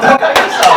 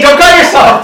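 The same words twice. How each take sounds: First: Said in the usual way. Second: High, laughing warning. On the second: Real, not acted. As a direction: giggle it out.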